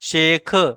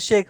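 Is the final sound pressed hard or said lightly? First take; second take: hard; light. First: The final sound is pressed hard and stressed. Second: The final sound is said lightly without stress. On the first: The speaker calls it wrong. "शेख ऐसे नहीं बोलना" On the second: The speaker calls it right. "बस शेख बोलना है"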